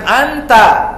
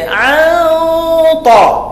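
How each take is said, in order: First: The n passes quickly without a nasal hum. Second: The n is held with a thick nasal hum. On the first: The speaker calls it wrong. "Jangan anta" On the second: The speaker calls it right. "Jadi an ta. ... Dia dengung dia pun apa, tafkhim, tebal"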